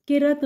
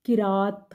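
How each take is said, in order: First: किरत with short a; wrong pronunciation. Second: किरात with long ā; correct pronunciation. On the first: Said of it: "किरत गलत है". (गलत उच्चारण किरत) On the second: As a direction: teach किरात, ki-rāt. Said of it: "सही तलफ़ुज़ है". (सही उच्चारण किरात) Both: Shown as a demonstration.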